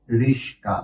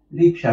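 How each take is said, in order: First: রিস্কা said as riska, with s before k; swapped consonants. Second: Said in the usual way. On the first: Shown as a demonstration. Teacher shows students a colloquial mispronunciation, riska. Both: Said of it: "একটা হলো রিক্সা এবং অন্যটা রিস্কা".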